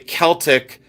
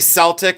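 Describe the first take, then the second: First: The word begins with a hard K sound. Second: The word begins with a soft S sound. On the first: It is said as for the design and music style. "like the design and the music" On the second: It is said as in the basketball team's name. "like the Boston Celtics"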